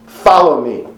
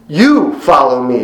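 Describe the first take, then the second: First: Said in the usual way. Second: Slow, with YOU and follow pressed hard; "You follow me" said slowly, each word weighted; emphatic command. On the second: Shown as a demonstration. Jesus urging Peter, slow and emphatic. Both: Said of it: "It was very emphatic".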